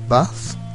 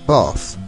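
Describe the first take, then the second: First: The vowel is short and open. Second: The vowel is long. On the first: The speaker is from the north. "the open, short vowels in the north" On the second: The speaker is from the south. "in the south it would sound more like bath, a long A"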